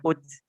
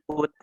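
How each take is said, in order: First: The final t ends in an s-like hiss. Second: The final t is released without an s-like hiss. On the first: The speaker calls it wrong. "bukan uts ya" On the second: The speaker calls it right. "tapi at, it, ut"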